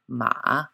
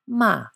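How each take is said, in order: First: The pitch dips low then comes back up. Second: The pitch falls sharply from high to low. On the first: "Third tone, ma, a dipping note" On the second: "And fourth tone, ma, a falling note"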